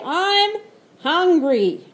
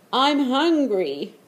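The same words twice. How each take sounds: First: It is yelled loudly. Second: It is said at normal volume.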